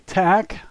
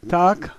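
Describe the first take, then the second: First: It is said with an American English pronunciation. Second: It is said with a native Russian pronunciation. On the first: The speaker calls it wrong. "if an American read this word, he would say" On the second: The speaker calls it right. "The Russians say"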